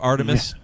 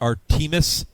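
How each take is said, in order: First: It is said the usual, standard way. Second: It is said the local Kentucky way. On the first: This is how the name is normally said. "instead of Artemis" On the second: This is how the Kentucky hometown name is said. "he calls it Artemis"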